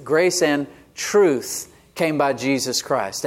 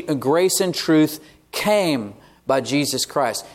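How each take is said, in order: First: "truth" drawn out, then a pause; slow the verse to set "truth" apart; stress on truth. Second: "came" stretched out and set apart by pauses; slow down and lean hard on "came"; stress on came. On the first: Preacher showing the verse's second word, stress on "truth". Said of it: "the second word in this verse is truth". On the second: Preacher emphasizing the verse's third word, stress on "came". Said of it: "emphasize that word". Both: Shown as a demonstration.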